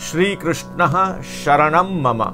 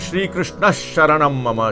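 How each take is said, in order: First: It is said slowly and carefully. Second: It is said quickly.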